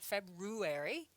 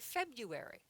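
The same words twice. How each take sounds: First: The first R is pronounced. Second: The first R is silent. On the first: The speaker calls it wrong. "there's an R in there, but we don't say February" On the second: The speaker calls it right. "We say February"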